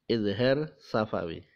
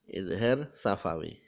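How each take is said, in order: Both takes have the same delivery.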